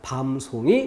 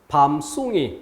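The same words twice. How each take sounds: First: The second syllable starts with a plain s. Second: The second syllable starts with a tensed s. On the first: The speaker calls it right. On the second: The speaker calls it wrong.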